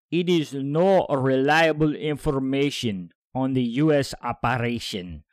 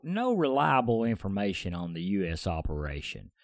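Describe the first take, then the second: First: Slow, louder put-on Russian accent. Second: Said in the usual way. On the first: Podcaster voices the Defense Ministry's statement in a put-on Russian accent. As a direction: do an amateur Russian accent, heavy and deliberate. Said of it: "do this in a Russian voice". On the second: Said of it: "let me start over again".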